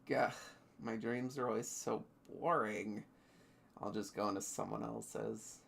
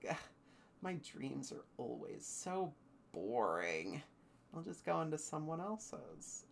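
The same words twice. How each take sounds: First: It is said in a put-on character voice. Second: It is said in the speaker's ordinary voice.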